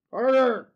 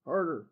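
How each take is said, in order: First: Said louder, forceful. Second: Quiet. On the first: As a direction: push it harder. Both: Pretend.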